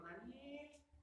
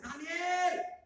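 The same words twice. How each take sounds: First: The name is said calmly, not shouted. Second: The name is shouted loudly.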